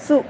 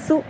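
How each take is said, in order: First: The s is thin, with the tongue back low. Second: The s is thin, with the tongue back low.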